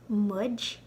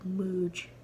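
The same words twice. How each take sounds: First: The vowel is short, as in book. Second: The vowel is long, as in food. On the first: The speaker calls it right. "it's like much, like ugh in book" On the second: The speaker calls it wrong. "it's not like muj"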